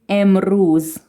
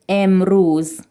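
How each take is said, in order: No difference in how they are said.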